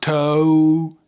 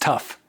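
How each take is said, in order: First: The word ends in a vowel, no F sound. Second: The word ends with a clear F sound. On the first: The speaker calls it wrong. "It's not toe" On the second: The speaker calls it right. "It's the F sound"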